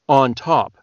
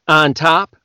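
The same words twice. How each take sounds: First: The vowels are more rounded. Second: The vowels are flatter and less rounded. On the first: "It's not on top, it's on top" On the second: "you guys would say on top"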